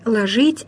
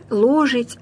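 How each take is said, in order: First: «ложить» stressed on ЖИТЬ: ложИть; unstressed first vowel, punch the end of «ложить»; stress on last syllable. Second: «ложить» stressed on ЛО: ЛОжить; stress on first syllable. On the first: («ложить» с ударением на последний слог) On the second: («ложить» с ударением на первый слог) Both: Shown as a demonstration. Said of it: "постоянно мы слышим".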